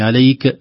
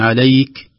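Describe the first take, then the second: First: The final k ends with an echoing bounce. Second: The final k ends with a breathy release. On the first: The speaker calls it wrong. "لا نقول عليك عليك هذه قلقلة" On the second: The speaker calls it right. "أما عليك هذا يسمى همس"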